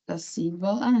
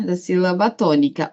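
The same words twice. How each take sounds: First: "síbala" com B e L trocados, hesitante e mais baixo; troca de sons. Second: Said in the usual way. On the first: Real, not acted. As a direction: tropece em "síbala", dizendo B antes do L. ("síbala" dito baixinho, com as consoantes invertidas) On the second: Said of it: "da síbala".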